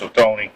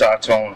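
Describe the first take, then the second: First: It starts with 'oh' and ends in 'tony'. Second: It starts with 'odd' and ends in 'tone'. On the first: The speaker calls it right. "none of us pronounced it right. It's O-Tony" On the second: The speaker calls it wrong. "Half of the family is odd tone"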